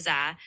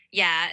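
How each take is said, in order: First: "za" with a z sound, for Northern Dạ; Northern pronunciation. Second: "yeah" with a y sound, for Southern Dạ; Southern pronunciation. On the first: Tutor names the form to avoid, Northern z pronunciation. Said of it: "instead of". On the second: Tutor accepts the correction, Southern y-sound pronunciation. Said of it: "in the Southern dialect, it would sound more like". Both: Shown as a demonstration.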